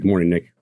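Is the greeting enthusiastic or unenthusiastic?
unenthusiastic. The greeting sounds flat and unenthusiastic.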